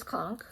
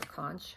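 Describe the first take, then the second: First: "conch" ending in a hard k, like "conk". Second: "conch" ending in ch, as in "lunch"; soft ch ending. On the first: Vlogger showing a yarn colour, "conch" said as "conk". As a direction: say "conch" with a k sound at the end. Offers two pronunciations of the name. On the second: Vlogger unsure of a colour name, "conch" ending in ch. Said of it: "however you say that". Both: Shown as a demonstration.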